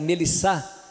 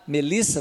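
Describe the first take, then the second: First: The stress falls on the last syllable. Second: The stress falls before the last syllable. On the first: A French speaker says it. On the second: A native Portuguese speaker says it.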